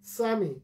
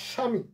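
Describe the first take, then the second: First: স্বামী as sami, beginning with s; dental s variant. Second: স্বামী as shami with silent ব; Bengali palatal sh. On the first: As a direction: swap the sh of স্বামী for plain s. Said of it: "হিন্দিতে আমরা". (স্বামী, দন্ত স দিয়ে) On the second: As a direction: start স্বামী with a clear sh. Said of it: "উচ্চারণ করি তালব্য স এর মতো". (স্বামী, তালব্য শ দিয়ে) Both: Shown as a demonstration.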